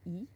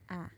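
First: It is said as the close vowel 'i'. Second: It is said as one open vowel, 'æ'. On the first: "there's some regions like in the middle where they say E" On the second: "when you start going north, the most common one is A"

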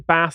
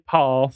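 First: The word is said with a northern English vowel. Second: The word is said with a southern English vowel. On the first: This is the speaker's own way of saying it. The speaker calls it right. "I say Bath" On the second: This is a way the speaker does not say it. The speaker calls it wrong. "I don't say Parth or anything like that"

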